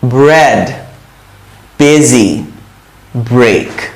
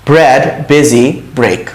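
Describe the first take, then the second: First: The words are said slowly with pauses. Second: The words are said quickly without pauses. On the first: "আমি বলবো একটু থামবো" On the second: "এখন একটু তাড়াতাড়ি বলি"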